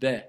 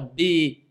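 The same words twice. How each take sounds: First: The b is released with only a light bounce. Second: The b is released with an exaggerated bounce. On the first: The speaker calls it right. "C'est juste b" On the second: The speaker calls it wrong. "Il ne faut pas exagérer aussi de faire b"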